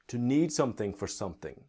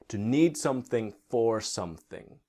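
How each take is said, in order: First: It is said at a faster, reduced pace. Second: It is said at a slower, careful pace.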